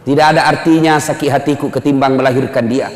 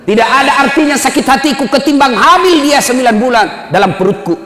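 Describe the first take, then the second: First: Said in the usual way. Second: The mother pleads harder for her son; raised plea. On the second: Acted.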